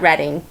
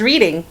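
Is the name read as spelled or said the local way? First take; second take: local way; as spelled. First: It is said the local way. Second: It is read as spelled. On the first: This is how locals say it. The speaker calls it right. "We pronounce that" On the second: This is how an outsider would read it. The speaker calls it wrong. "you would probably think that'd be very easy. That says"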